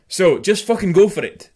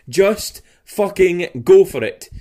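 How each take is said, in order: First: The final g of fucking is dropped. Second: The final g of fucking is clearly pronounced. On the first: The speaker calls it right. "See, that's better" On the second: The speaker calls it wrong. "That sounds so weird when I say the G on the end"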